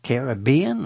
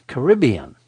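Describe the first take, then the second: First: "Caribbean" stressed on BE: care-uh-BEE-un. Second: "Caribbean" stressed on RIB: kuh-RIB-ee-un. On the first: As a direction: say "Caribbean" with the weight on the third syllable, BE. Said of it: "Do you say". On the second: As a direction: say "Caribbean" with the weight on the second syllable, RIB. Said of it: "don't even know how to say it". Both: Shown as a demonstration.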